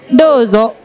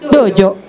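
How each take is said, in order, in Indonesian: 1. Konsonan di tengah itu bunyi 'z'. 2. Konsonan di tengah itu bunyi 'j'. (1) "Dozo itu kan pakai Z" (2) "kalau orang Sunda dojo"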